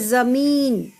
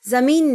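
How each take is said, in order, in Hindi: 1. लंबे स्वर को खींचा जाता है। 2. लंबे स्वर को छोटा काटा जाता है। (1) "बड़ी मात्रा का स्वर आपको कुछ सेकंड बढ़ा के बोलना चाहिए" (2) "ज़मीन नहीं बोलना है, ज़मीन गलत है"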